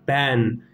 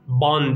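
First: The vowel is a fronted 'e' sound. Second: The vowel is an open, back 'a' sound. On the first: The speaker calls it right. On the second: The speaker calls it wrong.

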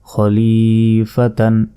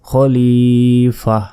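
First: The word ends with a 'tan' sound. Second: The word ends with a soft 'h' sound. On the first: The reading goes on without stopping. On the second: The reader stops at this word.

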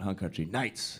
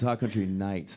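First: The K in Country is said hard. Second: The K in Country is said softly. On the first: The speaker calls it wrong. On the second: The speaker calls it right. "It's a soft K"

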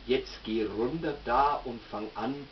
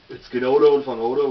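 First: It is said in standard German pronunciation. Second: It is said in Nuremberg Franconian dialect. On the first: "im Hochdeutschen" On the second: "Der Nürnberger sagt da ganz einfach"

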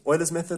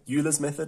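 First: Euler's is said with its standard pronunciation. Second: Euler's is said as its spelling suggests.

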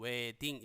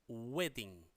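First: The initial w is weak, Korean-style. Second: The initial w is strongly lip-rounded. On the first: The speaker calls it wrong. "한글로는 wedding 이렇게 써놨는데" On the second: The speaker calls it right. "그게 아니라 wedding. W 발음이 확실하게 느껴지시나요?"

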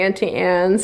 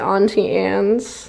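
First: Auntie starts with the vowel of 'ant'. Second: Auntie starts with the vowel of 'awn'. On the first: "I say Auntie Anne's" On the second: "you say Auntie Anne's"

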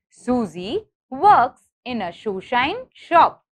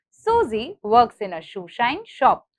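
First: The sentence is said at a slow pace. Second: The sentence is said at a fast pace.

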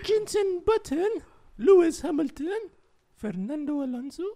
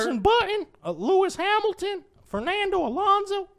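First: The names are read in a non-American accent. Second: The names are read in an American accent.

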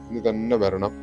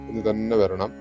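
Both takes have the same delivery.

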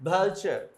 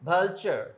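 First: The middle consonant is a ch sound. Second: The same.

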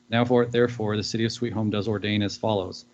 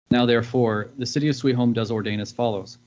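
No difference in how they are said.

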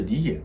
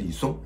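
First: The second syllable sounds like yan. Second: The second syllable sounds like song. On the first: The speaker calls it right. "应该是李琰" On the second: The speaker calls it wrong. "我发音成李松"

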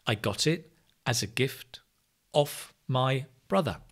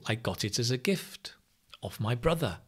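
First: The words are only lightly linked together. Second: The words are run together much more heavily. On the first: "it has that linking" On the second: "You can connect more if possible"

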